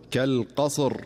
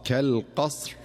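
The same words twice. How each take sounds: First: كالقصر stopped with a vowel on the ص; common mistake. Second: كالقصر with a silent ص and a clean final ر; correct stop. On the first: Teacher demonstrating the wrong stop on كالقصر. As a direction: say كالقصر with the ص voiced before the ر. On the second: Teacher demonstrating the correct stop on كالقصر. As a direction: stop on كالقصر keeping the ص still. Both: Shown as a demonstration. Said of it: "والصواب".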